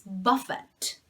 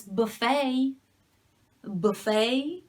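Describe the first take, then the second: First: BUFF-it, stress at the start and final t sounded; buffet as BUFF-it, slowly; first-syllable stress. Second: Buh-FAY, stressed at the end, silent t; buffet as buh-FAY, weak first vowel; second-syllable stress. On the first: Teacher showing learners the verb buffet, first-syllable stress. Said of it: "if the stress is in the beginning". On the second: Teacher showing learners the food word buffet, second-syllable stress. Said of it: "if the stress is in the second syllable". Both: Shown as a demonstration.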